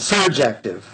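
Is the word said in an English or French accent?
English. It is said in a plain English accent.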